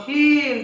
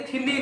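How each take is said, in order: First: ଥିନ୍ in one high, falling beat; correct pronunciation. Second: ଥିନି in two beats, "thi-ni"; wrong pronunciation. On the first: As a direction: say ଥିନ୍ ending on the N, silent E. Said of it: "ଥିନି ନୁହଁ". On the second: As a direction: say ଥିନି with the final E wrongly sounded. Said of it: "ନୁହଁ". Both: Shown as a demonstration.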